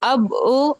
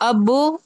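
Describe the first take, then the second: No difference in how they are said.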